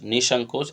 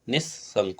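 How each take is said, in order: First: The middle s sound is short and single. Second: The middle s sound is held and doubled. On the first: The speaker calls it wrong. "अशुद्ध है" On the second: The speaker calls it right. "आधा सा और फिर पूरा सा"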